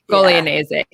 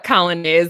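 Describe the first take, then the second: First: The surname is said with an Italian pronunciation. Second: The surname is said with an English pronunciation. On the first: This is the original Italian way. The speaker calls it right. "If we were saying it correctly" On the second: This is how the family says it. The speaker calls it wrong. "is how we say it"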